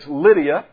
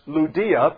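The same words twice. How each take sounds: First: The name has the usual, familiar English pronunciation. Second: The name has a less common, original-style pronunciation. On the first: This is the everyday way the name is said. "how we normally pronounce it" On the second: This is how the name is properly pronounced. "her name is pronounced Lydia"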